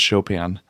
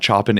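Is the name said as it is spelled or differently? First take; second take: differently; as spelled. First: The name is not pronounced the way it is spelled. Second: The name is pronounced the way it is spelled. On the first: This is the accepted pronunciation. The speaker calls it right. "no, it's Chopin" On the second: This is a childhood mispronunciation. The speaker calls it wrong. "That's how I pronounced it when I was a kid"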